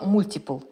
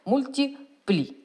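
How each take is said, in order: First: The word ends on a bare 'l' sound. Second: The word ends with a final 'lee' syllable. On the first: Someone else says it this way. "Катя говорила" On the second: It is read literally as written. "если дословно читать"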